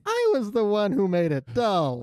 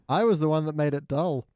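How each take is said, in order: First: It is said in an imitation of Ralph's voice. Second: It is said in the speaker's normal voice.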